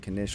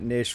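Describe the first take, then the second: First: It starts with a hard K sound. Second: It starts without a K sound.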